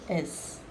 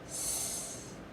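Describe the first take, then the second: First: It is said as the letter name, ess. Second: It is a plain hissing sound, sss. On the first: This is what the letter is called. "This is the letter S" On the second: This is the sound the letter makes. "it makes the sound S"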